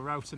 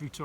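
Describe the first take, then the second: First: "router" said ROW-ter, with an ow vowel as in "out"; router as "rowter". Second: "router" said ROO-ter, with an oo vowel; router as "rooter". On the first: Weighing up the right word, "router" pronounced "rowter". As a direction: say "router" to rhyme with "doubter". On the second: Unsure which word is right, "router" pronounced "rooter". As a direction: say "router" to rhyme with "shooter". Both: Shown as a demonstration. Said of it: "if it's router or router now".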